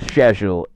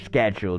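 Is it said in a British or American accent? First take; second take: British; American. First: It is said in a British accent. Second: It is said in an American accent.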